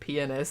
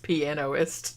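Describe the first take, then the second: First: The word is said in the short usual form. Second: The word is said as piano plus ist. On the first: This can sound like a rude word. The speaker calls it wrong. "instead of pianist" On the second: This avoids sounding like a rude word. The speaker calls it right. "it's pre- pronounced pianoist"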